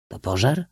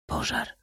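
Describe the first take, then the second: First: POŻAR rising as a question. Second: Hushed, toneless answer; hollow, dull reply. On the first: Prince questioning the Cossack, POŻAR lifted at the end. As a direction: ask it, voice climbing on POŻAR. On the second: Cossack answering the prince, hollow and hushed. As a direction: drop to a soft, hollow murmur. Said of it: "odparł głucho". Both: A narrator's reading.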